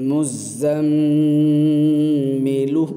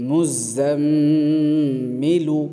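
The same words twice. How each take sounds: The two takes are said the same way.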